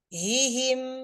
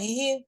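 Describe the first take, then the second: First: The word is said slowly and unhurriedly. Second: The word is said quickly and hurriedly. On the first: The speaker calls it right. "dengan tidak mengucapkannya tergesa-gesa" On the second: The speaker calls it wrong. "jangan hihi"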